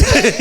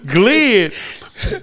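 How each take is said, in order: First: Glid said high and loud, short i; Glid, not glide, proudly. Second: Glid with a rising pull, short i; Glid, held and rising; glid drawn out. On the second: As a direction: stretch Glid as a rising question. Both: Shown as a demonstration. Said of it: "you saying glid".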